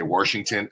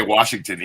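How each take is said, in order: First: Washington with an added r, "WARSH-ington"; childhood mispronunciation. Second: Said in the usual way. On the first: Shown as a demonstration. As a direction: put an r into Washington, "Worshington". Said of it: "I used to say Washington". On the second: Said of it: "I couldn't say Washington either".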